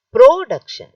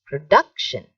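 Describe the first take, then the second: First: "production" as PRO-duction, high and loud; stress on first syllable. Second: "Production" with DUC punched louder; stress on second syllable. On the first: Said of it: "it is wrong". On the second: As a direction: hit the second syllable of "Production", then fall. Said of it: "So what is right?". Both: Shown as a demonstration.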